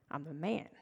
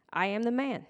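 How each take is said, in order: First: Low, soft repeat with a lift; quiet aside. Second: Mildly insistent, full-voiced claim. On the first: Healed man repeating his claim to neighbors, quiet aside. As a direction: drop it low and hushed, rising at the end. Repeats the insisted line, hushed. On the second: Healed man answering doubting neighbors, mildly insistent. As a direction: state it firmly at normal volume. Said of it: "he himself insisted". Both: A narrator's reading.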